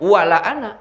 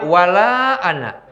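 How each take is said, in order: First: The vowel in 'la' is cut short. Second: The vowel in 'la' is held long. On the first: And I will surely worship what you worship. The speaker calls it wrong. "laknya jadi pendek" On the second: I will not worship what you worship. The speaker calls it right. "Mestinya wala ana"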